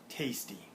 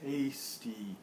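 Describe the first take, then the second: First: "Tasty" as one quick joined word; softer, compact "Tasty"; fully blended. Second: "Tasty" stretched into tay, stee; "Tasty" with both syllables held; nearly blended. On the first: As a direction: say "Tasty" shorter, syllables run together. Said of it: "That is blending". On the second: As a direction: say "Tasty" drawn out in two chunks. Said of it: "A little bit faster". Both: Shown as a demonstration.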